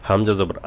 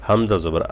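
The two takes are said the same way.

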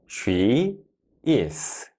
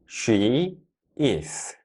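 The two takes are said the same way.

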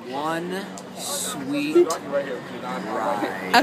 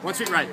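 First: It is said at a slower pace. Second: It is said at a fast pace.

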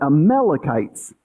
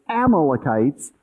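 First: The stress is on the second syllable. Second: The stress is on the first syllable. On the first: This is how Hebrew speakers say it. "in Hebrew it's always the second" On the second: This is how English speakers say it. "we put the first accent on the first syllable"

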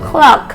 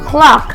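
Both takes have the same delivery.

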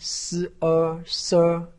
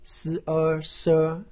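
First: The pitch stays high and level. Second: The pitch stays high and level.

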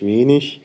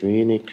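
First: The ending -ig sounds like ich. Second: The ending -ig does not sound like ich. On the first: "norddeutscher Prägung ist eben ich" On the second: "in Süddeutschland sagt man das nicht"

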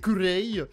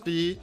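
First: Two syllables, ending in an 'ay' vowel. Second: One syllable ending in an 'ee' vowel. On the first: This is how it is said in Korean. "En coréen, c'est kurei" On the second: This is how it is said in English. "En anglais, ça se prononce kli"

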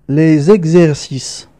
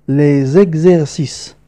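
No difference in how they are said.

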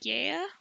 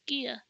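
First: The name starts with a 'guy' sound. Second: The name starts with a 'gee' sound. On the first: The speaker calls it wrong. "I always pronounced it in my head, Gaia. But that's probably not how you pronounce it" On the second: The speaker calls it right. "Yeah, it's Gia"

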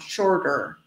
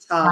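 First: It is said with an American accent, R pronounced. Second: It is said with a British accent, R dropped.

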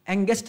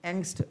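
First: An extra vowel splits it into two syllables. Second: It is said as one syllable, no extra vowel. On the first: The speaker calls it wrong. "एंगेस्ट नहीं बोलते इसको" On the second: The speaker calls it right. "क्या बोलेंगे इसको, एंगस्ट"

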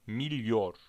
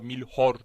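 First: The middle consonant is a y sound. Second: The middle consonant is an h sound. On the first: The speaker calls it right. "milyor şeklinde" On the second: The speaker calls it wrong. "milhor değil"

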